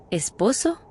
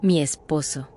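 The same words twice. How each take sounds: First: "¿Esposo?" with a rising, startled question tune; stunned echo. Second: Low, calm and defiant "Mi esposo"; a touch of defiance in a calm voice. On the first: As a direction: echo "¿Esposo?" in disbelief, voice lifting at the end. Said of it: "Casi me atraganto con la cerveza". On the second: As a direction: say "Mi esposo" low and unbothered, leaning on "mi". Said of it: "Me miró tranquila, hasta desafiante". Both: A narrator's reading.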